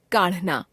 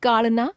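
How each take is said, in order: First: काढ़ना with breathy flap ढ़, falling; काढ़ना as kaṛhna, closing fall; aspirated ढ़. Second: काढ़ना said as काड़ना, rising; काढ़ना without aspiration, end lifted. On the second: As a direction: drop the breath of ढ़ in काढ़ना. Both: Shown as a demonstration. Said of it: "ड़ और ढ़ की अशुद्धियां".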